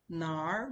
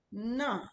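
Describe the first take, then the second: First: NAR said long in the Mandarin third tone. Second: NA pitched high and falling, fourth tone. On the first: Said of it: "is a third tone". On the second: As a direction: start NA high and loud, then drop it. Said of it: "is a fourth tone". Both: Shown as a demonstration.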